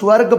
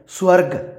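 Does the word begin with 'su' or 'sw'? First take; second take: sw; su. First: It begins with a 'sw' consonant cluster. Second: It begins with 's' and a 'u' vowel. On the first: The speaker calls it wrong. "इह स्वर्ग ना बोलदे होए" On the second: The speaker calls it right. "आपां इहनूं स्वर्ग बोल दिंदे आ"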